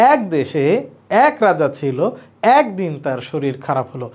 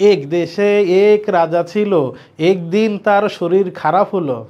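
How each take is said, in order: First: Casual storytelling read of "একদিন তার শরীর খারাপ হলো"; natural everyday way. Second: Deliberately bookish spelling-pronunciation of "একদিন তার শরীর খারাপ হলো"; wrong way, as spelled. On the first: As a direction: let "এক" come out open, the way people really say it. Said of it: "আমরা বলি". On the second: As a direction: sound out "এক" exactly as it is written, as a wrong example. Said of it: "এভাবে বলি? বলি না।". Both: Shown as a demonstration.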